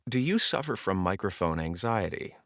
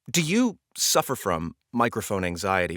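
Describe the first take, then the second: First: It flows out in one smooth breath. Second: It is broken into three constricted bursts.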